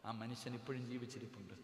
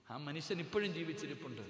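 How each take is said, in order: First: Said in the usual way. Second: ഇപ്പോഴും lifted higher and firmer; emphatic repetition. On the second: Real, not acted. Preacher testifying his in-law still lives, emphatic on ഇപ്പോഴും. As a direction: stress ഇപ്പോഴും with a raised pitch.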